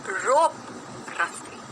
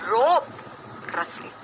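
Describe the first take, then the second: Both takes have the same delivery.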